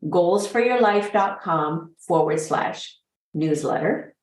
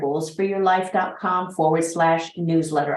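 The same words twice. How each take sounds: First: It is said more slowly. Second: It is said a little fast.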